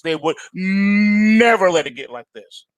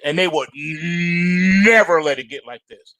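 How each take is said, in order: First: Said in the usual way. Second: "never" leaned on, whole line slow; slow stress on never. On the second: Shown as a demonstration. Host telling viewers the old rules, slow with "never" stressed. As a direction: drag it out, landing on "never". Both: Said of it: "Say it with me again".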